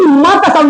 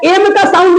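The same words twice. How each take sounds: First: "माँ" said as the sound of M, not its name; phonic sound of M. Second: Said in the usual way. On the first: Shown as a demonstration. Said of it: "माँ का sound निकलेगा". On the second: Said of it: "एम का sound निकलेगा कि माँ का".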